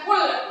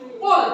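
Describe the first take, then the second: First: The first consonant is a light, plain k. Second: The first consonant is deep, full and rounded. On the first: The speaker calls it wrong. "bukan kul" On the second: The speaker calls it right. "harus dibaca dengan bacaan yang bulat"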